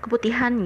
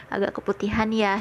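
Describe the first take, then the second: First: A lightly blunt mock verdict; slightly raised, matter-of-fact retold remark; blunt wording, imitated. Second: Gently hedged retold verdict; mild, considerate imitation of a tactful critic; tactful, imitated. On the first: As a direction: say it straight out, without softening. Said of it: "nggak nyakitin hati gitu, nggak bilang". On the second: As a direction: break it kindly, careful not to hurt. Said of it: "nggak nyakitin hati".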